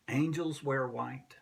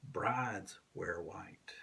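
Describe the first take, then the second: First: Said in the usual way. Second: Slow, breathy whisper of the line; whispered, reverent and slow; hushed whisper. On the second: Acted. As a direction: let it fall to a whisper.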